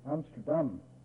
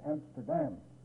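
First: The stress falls on the last syllable. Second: The same.

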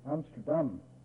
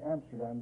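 First: The stress falls on the last syllable. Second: The stress falls before the last syllable. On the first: This is how the city's own people say it. "They always put the accent on the last syllable" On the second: This is the usual local way of saying it. "We usually say Amsterdam"

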